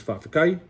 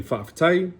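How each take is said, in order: First: Fa'afekai with a k in place of the t; colloquial k sound. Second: Said in the usual way. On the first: Shown as a demonstration. Teacher showing casual Samoan, colloquial k in fa'afekai. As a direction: say fa'afekai, hard k before the ending. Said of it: "to K's". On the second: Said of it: "the T's".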